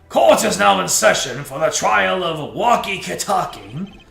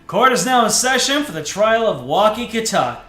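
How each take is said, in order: First: It is read in the judge's character voice. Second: It is read in a non-judge character voice. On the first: The speaker calls it right. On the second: The speaker calls it wrong.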